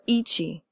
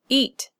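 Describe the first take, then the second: First: The word ends in ch plus an ee vowel. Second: The word ends in a t stop. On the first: The speaker calls it wrong. "or eachy" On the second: The speaker calls it right. "Eat is one syllable with a stop consonant"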